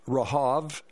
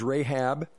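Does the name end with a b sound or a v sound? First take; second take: v sound; b sound. First: The name ends with a v sound. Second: The name ends with a b sound. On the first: This is the original biblical pronunciation. "in the Bible it is pronounced Rahav" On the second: This is the usual modern English pronunciation. "We would pronounce it as Rahab"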